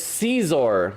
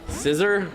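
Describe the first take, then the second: First: The first vowel is an ee sound. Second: The first vowel is a short i sound. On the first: "it's Caesar, like little Caesars" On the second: "I think it's a short I sound"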